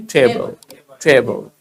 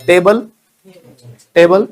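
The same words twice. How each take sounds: First: Table as low, falling "thay-bul"; aspirated T. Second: Table rising, louder, dry T; hard Indian T. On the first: Teacher has learners repeat, table with a puff on T. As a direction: breathe out on the T of table. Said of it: "Speak after me". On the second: Teacher contrasts the old way, table with hard rising T. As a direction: hit table with no puff of air. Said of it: "Not table". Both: Shown as a demonstration.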